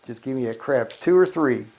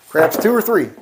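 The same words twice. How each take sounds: First: Said in the usual way. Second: Louder and higher plea for craps. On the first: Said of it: "repeats it louder". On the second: Real, not acted. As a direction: call it out to the dice, higher and louder.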